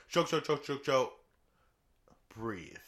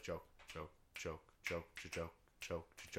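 First: Punchy burst with a breather; bursts, then breathe. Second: Low, quiet, steady patter; soft relentless run with no breather; nonstop stream. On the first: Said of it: "But they're like". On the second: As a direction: keep them ticking along under your breath. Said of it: "This is just like". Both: Shown as a demonstration.

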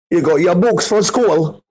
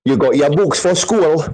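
First: Geordie accent pushed higher, mocking. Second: A light hint of a Geordie accent, mocking. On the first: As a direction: go bigger on the Geordie mockery, pitched up. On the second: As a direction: toss off a lazy Geordie impression. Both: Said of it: "That Newcastle accent is fucking absolutely abysmal".

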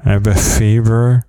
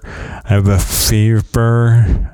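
First: Quick "fever" through missing teeth; fast. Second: "fever" drawn out slowly through missing teeth; slow, careful. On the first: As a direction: rattle off "I have a fever". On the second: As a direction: carefully spell out "I have a fever". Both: Shown as a demonstration. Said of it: "Let's say some words I can't say".

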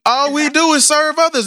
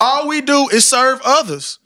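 First: "All we do is serve others" said higher, landing hard on "others" with a fall; higher emphatic repeat. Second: Slow, weighted delivery with each word of "all we do is serve others" pressed down; slow emphatic. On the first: Repeating the point to friends, higher and insistent. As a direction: raise the pitch and hammer "others" at the end. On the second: Speaker to friends on serving others, slow and emphatic. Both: Real, not acted. Repeats line to drive home.

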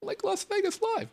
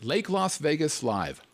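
First: Much higher excited announcement; hyped announcer. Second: Said in the usual way. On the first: Shown as a demonstration. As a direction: announce it with big hype. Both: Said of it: "repeats title".

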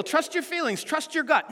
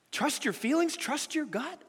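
First: Said in the usual way. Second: Skeptical rising echo of the advice, softer; incredulous question. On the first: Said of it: "our world today tells us that". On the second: Shown as a demonstration. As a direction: question it as if it were absurd. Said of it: "The Bible says the exact opposite".

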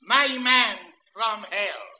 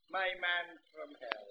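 First: Slow, loud, every word weighted; My Man from Hell read slowly and loud; headline read. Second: Said in the usual way. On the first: Shown as a demonstration. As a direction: proclaim the heading. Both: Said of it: "The heading".

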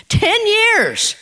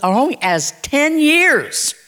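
First: Ten years jumps up high, ringing out; ringing repeat. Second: Slow, drawn out. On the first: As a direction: throw TEN YEARS up high as an astonished echo. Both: Shown as a demonstration.

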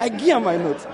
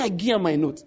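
First: Mock incredulous echo. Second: Warri Pidgin quote. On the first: Narrator echoing the classmate, mildly mocking disbelief. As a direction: echo I give her my note in a lightly mocking tone. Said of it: "I look at the guy like". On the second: Retold or imitated. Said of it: "He said".

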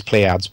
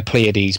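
First: Pleiades as PLAY-adz; alternative pronunciation. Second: Pleiades as three syllables, PLAY-uh-deez; unsure pronunciation. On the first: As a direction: say "Pleiades" with a short "adz" ending. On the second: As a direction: say "Pleiades" ending in a long "deez". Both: Shown as a demonstration. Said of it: "whatever it's called".

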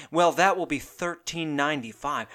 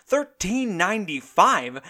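First: Said in the usual way. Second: Slow, higher, stunned repeat of the price; higher, drawn-out outraged disbelief; incredulous echo. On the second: Acted. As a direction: say it like you can't believe your ears.

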